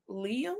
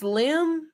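First: Liam said as two syllables, LEE-um; a decided Liam. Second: Lim said as one short syllable, rhyming with him; a careful, tentative Lim. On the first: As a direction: settle on the name as Liam. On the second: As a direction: slowly try out the name as Lim. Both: Shown as a demonstration. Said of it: "I don't know if it's Liam or Lim".

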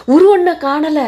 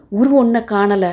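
First: High, loud panicked repeat; louder, higher alarmed second call; alarmed cry. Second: Said in the usual way. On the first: Acted.

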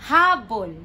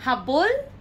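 First: "Habol" with loud HA, falling; HA-bol, heavy first syllable of "Habol"; stress on first syllable. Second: "Habol" as ha-BOL, rising; stress on last syllable. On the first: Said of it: "the stress is in the middle". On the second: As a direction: lift BOL in "Habol", contrasting. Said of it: "So the stress is here". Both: Shown as a demonstration.

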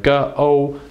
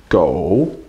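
First: "go" split into "guh" and "oh"; segmented "go", held level; sounded out. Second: "go" in one piece, low and dipping; low dipping third tone on "go"; blended syllable. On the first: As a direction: break "go" into two separate sounds, "guh... oh". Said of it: "mouth big a little". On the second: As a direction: join "go" up and dip the tone down then up. Teacher blends the sounded-out syllable. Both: Shown as a demonstration.

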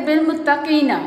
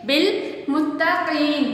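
First: "बिल मुत्तकीना" with the final na voiced; without the stop. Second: "बिल मुत्तकीन" slowly, stopping on a vowelless n; waqf stop. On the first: Teacher showing reading without waqf, "बिल मुत्तकीना" ending in na. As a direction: say "बिल मुत्तकीना", keeping the vowel after the n. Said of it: "अलामत ना होती तो हम इसको पढ़ लेते". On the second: Teacher showing waqf to students, slow "बिल मुत्तकीन" stopped on n. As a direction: recite "बिल मुत्तकीन" slowly with long ee, closing on n. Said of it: "साकिन कर देते हैं". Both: Shown as a demonstration.

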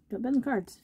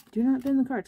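First: Said in the usual way. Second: "not" pulled out of "Do not" and hit harder; a firm mock scolding on "not"; stress on not. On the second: Real, not acted. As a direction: spell out "Do not" and punch "not".

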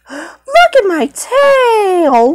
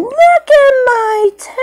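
First: Slow, higher show-off; slow high cat voice. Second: High squeaky show-off; very high cat voice. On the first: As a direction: show off the tail slowly in a higher voice. Aristocats character showing tail. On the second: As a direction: squeak it out much higher. Repeated higher. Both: Pretend.

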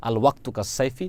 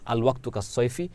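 Both takes have the same delivery.

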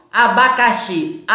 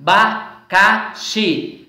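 First: Said in the usual way. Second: "abacaxi" slowly as a, ba, ca, xi; split into syllables. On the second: Shown as a demonstration. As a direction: give each syllable of "abacaxi" its own beat. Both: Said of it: "Nós temos aí quatro sílabas".

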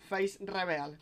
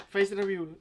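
First: "Face reveal" with English feis, reveal spelled out as re-be-al; corrected pronunciation. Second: "Face review" said as fes rebjul, Spanish vowels; "Face review" read the Spanish way, review as rebjul; unsure pronunciation. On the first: Shown as a demonstration. Streamer correcting how he reads the title aloud. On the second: Real, not acted. Streamer reading a stream title to viewers, unsure how to say it. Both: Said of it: "¿Cómo se pronuncia?".

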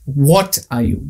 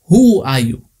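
First: "What" leaned on, slow and deliberate; slow "What are you?" with the weight on "What"; stress on what. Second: "Who are you?" with the weight on "Who"; stress on who. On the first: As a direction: hit "What" to ask what kind of thing it is. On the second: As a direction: hit "Who" as if asking for a name. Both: Shown as a demonstration. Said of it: "They didn't ask".

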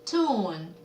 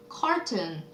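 First: "cartoon" split into car and a drawn-out toon; syllable by syllable. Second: Said in the usual way. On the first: Shown as a demonstration. Teacher answering a vocabulary question, "cartoon" broken by syllable. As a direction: sound out "cartoon" in two separate halves. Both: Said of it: "만화는요?".

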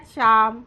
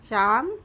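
First: A sweet, carrying call of his name. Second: Said in the usual way. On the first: A narrator's reading. Mother sweetly calls Shyam from her meal, sweet call. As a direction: call his name sweetly across the house, a touch louder. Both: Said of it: "अशी आईने गोड हाक मारली".

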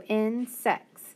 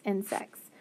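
First: Insects said very slowly; slow blending. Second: Said in the usual way. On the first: Shown as a demonstration. Teacher to students, slowly blending insects. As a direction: draw insects out syllable by syllable. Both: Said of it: "So s-, ex, sex".

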